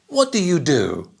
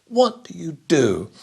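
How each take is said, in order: No difference in how they are said.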